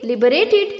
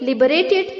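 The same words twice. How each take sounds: Both takes have the same delivery.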